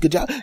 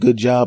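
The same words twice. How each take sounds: First: It sounds warm and enthusiastic. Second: It sounds lukewarm and mildly disappointed.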